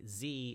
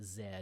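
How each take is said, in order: First: It is said as American zee. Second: It is said as Canadian/European zed.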